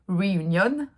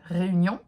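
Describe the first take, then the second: First: The word is said with an English accent. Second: The word is said with a French accent.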